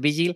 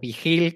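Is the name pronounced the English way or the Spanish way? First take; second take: English; Spanish. First: The name is said with English pronunciation. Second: The name is said with Spanish pronunciation. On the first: This is the original pronunciation. The speaker calls it right. "pero en realidad es Vigil" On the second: This is how locals usually say it. The speaker calls it wrong. "que como lo pronunciamos nosotros"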